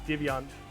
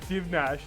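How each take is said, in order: First: The name ends with a 'yanch' sound. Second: The name ends with a 'nash' sound. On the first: The speaker calls it right. "I am attempting to fix it" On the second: The speaker calls it wrong. "I even said Divnash"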